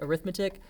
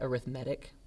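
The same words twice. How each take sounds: First: The stress is on the second syllable. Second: The stress is on the third syllable. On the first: It is used as a noun. "isn't that word arithmetic?" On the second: It is used as an adjective. "we use it as like an adjective, and we say arithmetic"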